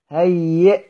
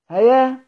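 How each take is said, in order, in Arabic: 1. الكلمة تنتهي بهمزة وقف. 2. الكلمة تنتهي بصوت الألف الممدودة.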